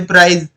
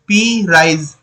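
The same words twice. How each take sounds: First: Said in the usual way. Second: "पी राइज" as two separate parts of प्राइज; teacher splitting the word into "पी", then "राइज"; split in two. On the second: Shown as a demonstration. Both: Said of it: "दो word से मिलकर के बन रहा है".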